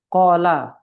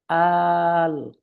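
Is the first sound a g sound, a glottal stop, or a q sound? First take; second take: q sound; glottal stop. First: It begins with a deep q sound. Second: It begins with a glottal stop. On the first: This is the standard reading. "dibacanya apa misalnya" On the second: This is how people in Cairo say it. "orang Kairo bilang"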